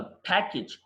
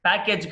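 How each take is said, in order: First: ప్యాకేజ్ with a short "kij" ending; correct pronunciation. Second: ప్యాకేజ్ with a "kayj" ending; wrong pronunciation. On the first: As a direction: say ప్యాకేజ్ as "PACK-ij". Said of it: "ప్యాకేజ్ కాదు". (ప్యాకేజ్ చివర "కిజ్" అని) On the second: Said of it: "కాదు". (ప్యాకేజ్ చివర "కేజ్" అని తప్పుగా) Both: Shown as a demonstration.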